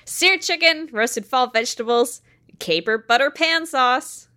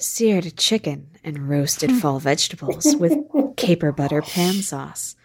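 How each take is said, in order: First: It is read in her natural speaking voice. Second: It is read in a put-on sultry voice. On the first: "just normal [name] voice" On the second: "Can I do a different voice? ... This is the B"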